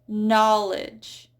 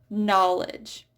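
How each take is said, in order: The two takes are said the same way.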